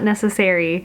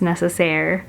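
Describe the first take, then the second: First: The word ends with an extra vowel sound. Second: The word ends without a final vowel sound. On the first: The speaker calls it wrong. "It's not necessary" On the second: The speaker calls it right. "the E is silent"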